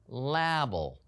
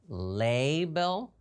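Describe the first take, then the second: First: The first A is a short vowel. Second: The first A is a long vowel.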